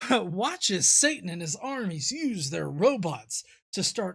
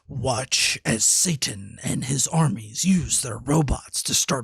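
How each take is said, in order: First: It is read in a normal speaking voice. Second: It is read in a dramatic movie-trailer voice.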